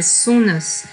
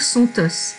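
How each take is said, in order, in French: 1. Les mots sont reliés par un son n. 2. Les mots sont reliés par un son t. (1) "il y avait une liaison ici, on disait" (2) "S'il y avait eu un T, j'aurais dû dire"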